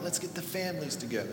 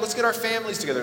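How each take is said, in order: First: It is said in a put-on mobster voice. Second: It is said in a normal friendly voice.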